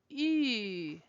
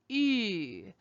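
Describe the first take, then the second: The two takes are said the same way.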